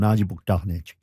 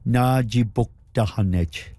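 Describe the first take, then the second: First: The word is said at normal speed. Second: The word is said slowly and carefully.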